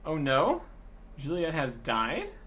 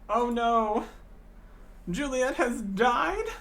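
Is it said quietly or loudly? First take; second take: quietly; loudly. First: It is said quietly, without much force. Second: It is said louder, sounding upset.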